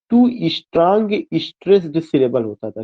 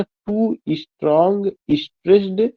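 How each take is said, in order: First: Said in the usual way. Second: टू strong stressed repeated slowly, each word spaced and weighted; slow emphatic repeat. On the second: Shown as a demonstration. Teacher repeating the key term to his class, slow and deliberate. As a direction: lean on stressed with a rise, unhurried so students can write. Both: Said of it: "क्या होता था?".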